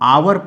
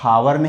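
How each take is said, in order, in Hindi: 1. यह शब्द सीधे स्वर ध्वनि से शुरू होता है। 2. यह शब्द h ध्वनि से शुरू होता है। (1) "यहां इसे हम आवर पढ़ते हैं" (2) "हावर नहीं"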